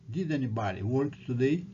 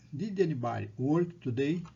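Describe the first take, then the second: No difference in how they are said.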